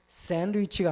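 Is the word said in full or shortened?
full. It is said in full with every syllable.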